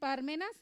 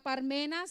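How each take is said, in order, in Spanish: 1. El acento está en la primera sílaba. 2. El acento no está en la primera sílaba.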